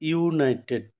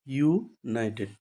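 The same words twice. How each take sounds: First: Said in the usual way. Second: ইউনাইটেড slowly, with a clear pause after ইউ; split into parts. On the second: Shown as a demonstration. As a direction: break ইউনাইটেড into "yoo", pause, "nited". (ইউ-এর পরে থেমে ইউনাইটেড ভেঙে উচ্চারণ) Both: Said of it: "ইউর মতো করে উচ্চারণ".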